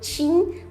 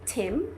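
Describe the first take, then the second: First: The first sound is a 'ch' sound. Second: The first sound is a plain 't' sound. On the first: The speaker calls it wrong. "o ch de tia, que a gente fala em Tim" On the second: The speaker calls it right. "mas no inglês é Tim"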